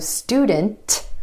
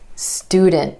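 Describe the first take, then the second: First: The T is released with a burst of air. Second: The T is held without any release. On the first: The speaker calls it wrong. "Instead of student" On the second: The speaker calls it right. "you're going to hear a held T for that cluster"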